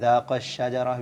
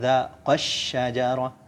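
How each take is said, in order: First: The long syllable after qaf is said plainly. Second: The long syllable after qaf is pressed. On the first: Only one person approached the tree. The speaker calls it wrong. "jangan dibaca dhaqash syajarah biasa" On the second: Two people approached the tree. The speaker calls it right. "jadi ada sedikit tekanan"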